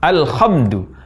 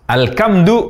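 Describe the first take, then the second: First: The consonant is a raspy kh sound. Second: The consonant is a hard k sound. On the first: "mengucapkan huruf H dari tempat keluar huruf Kho" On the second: "mengubah bunyi H menjadi Ka"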